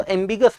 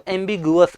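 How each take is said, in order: First: एम्बिगस with no vowel glide after the g; three-syllable pronunciation. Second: एम्बिगुअस with an added "u" after the g; four-syllable pronunciation. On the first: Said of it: "कुछ बच्चे इसको एम्बिगस पढ़ते हैं". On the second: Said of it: "एम्बिगुअस पढ़ते हैं". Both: Shown as a demonstration.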